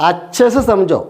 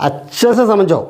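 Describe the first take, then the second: The two takes are said the same way.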